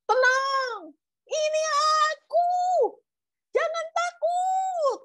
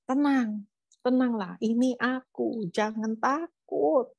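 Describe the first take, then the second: First: Very high, drawn-out calling voice; high acted holler over a storm; louder, over wind. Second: Slow, measured reassuring voice; calm, unhurried storybook Jesus; calm reassurance. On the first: Shown as a demonstration. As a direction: call across the wind, stretching each word. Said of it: "lebih keras ya kan angin". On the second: A narrator's reading. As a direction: soothe them gently, stretching the words. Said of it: "Mungkin suaranya lebih, lebih keras".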